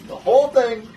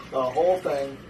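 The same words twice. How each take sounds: First: Excited. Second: Said in the usual way. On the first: Real, not acted.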